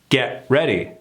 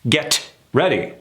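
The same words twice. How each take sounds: First: The T at the end of get is dropped. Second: The T at the end of get is pronounced. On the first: "The T is gone" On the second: "We're pronouncing the T"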